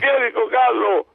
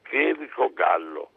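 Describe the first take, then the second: First: The name is said loudly and boldly. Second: The name is said quietly and timidly. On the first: The speaker has found courage. "parla un po' più forte. Allora sai, mi sono fatto coraggio" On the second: The speaker is shy and hesitant. "sommessamente dico"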